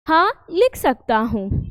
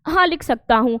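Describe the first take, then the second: First: There is a short pause after the first word. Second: The words run together with no pause. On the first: The sentence is said beautifully and clearly. The speaker calls it right. "हाँ बोलिए, थोड़ा रुकिए, अल्प विराम है, थोड़ा रुकिए" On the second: The meaning and feeling are not clear. The speaker calls it wrong. "ये चिन्ह को ना बोले तो ये वाक्य कैसे बोला जाएगा?"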